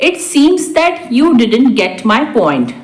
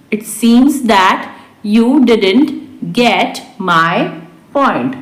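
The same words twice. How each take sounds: First: Said in the usual way. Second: Word by word, with pauses; slow repeat. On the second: Shown as a demonstration. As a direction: dictate it to learners slowly. Teacher repeats translation word by word. (धीरे-धीरे, शब्द-दर-शब्द)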